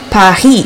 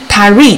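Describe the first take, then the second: First: The R is a French uvular sound. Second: The R is an American English R.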